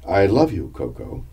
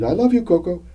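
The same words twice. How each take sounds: First: It is said in a normal voice. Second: It is said in a much higher voice.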